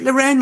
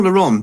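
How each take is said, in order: First: Lauren said "luh-REN", pitched high; "REN" ending. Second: Lauren said "luh-RON"; French-style "RON" ending. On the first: Asking the co-host, Lauren as "luh-REN". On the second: Asking the co-host, Lauren as "luh-RON". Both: Shown as a demonstration. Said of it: "Is it Lauren or Lauren".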